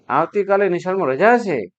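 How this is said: It is said with surprise.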